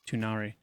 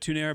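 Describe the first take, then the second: First: The name ends with an 'ah-ree' sound. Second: The name ends with an 'air' sound. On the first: "it's now Tunari" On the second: "I said Tunair"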